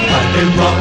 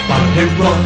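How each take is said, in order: The two takes are said the same way.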